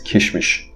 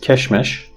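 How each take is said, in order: First: Both vowels are 'i' sounds. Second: Both vowels are 'e' sounds. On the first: This is the everyday spoken form. "you will hear people pronouncing it as kishmish" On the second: This is the bookish form. "You will learn from books"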